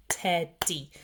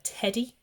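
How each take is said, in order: First: "teddy" slowly as two separate beats, ted-dee; split into syllables. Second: Said in the usual way. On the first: Shown as a demonstration. Teacher showing what two syllables are, said in separate beats. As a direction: break "teddy" in two with a gap. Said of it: "which is two syllables". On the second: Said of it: "it's teddy".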